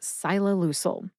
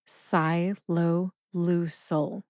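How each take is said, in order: First: The word is said very quickly. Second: The word is said slowly and carefully. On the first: "if you say it super fast" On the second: "let me say that a little bit slower"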